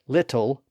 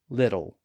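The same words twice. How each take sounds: First: The middle consonant is a clear T. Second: The middle consonant is a quick D-like tap.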